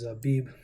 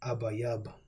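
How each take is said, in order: First: The word is pronounced the Yiddish way. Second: The word is pronounced the Paleo Hebrew way. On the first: The speaker calls it wrong. "not the proper pronunciation. This is the Yiddish uh, pronunciation" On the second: The speaker calls it right. "the Paleo Hebrew pronunciation, the real uh, Hebrew"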